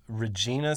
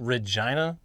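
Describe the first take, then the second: First: Regina as ruh-JEE-nuh; mistaken pronunciation. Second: Regina as rih-JY-nuh; corrected pronunciation. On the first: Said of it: "'cause we pronounced". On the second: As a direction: say Regina rhyming with vagina. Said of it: "Apparently it's pronounced". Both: Shown as a demonstration.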